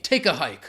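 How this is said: It is said forcefully with strong emphasis. The speaker really wants the person gone. The speaker calls it right. "So you want to be mean"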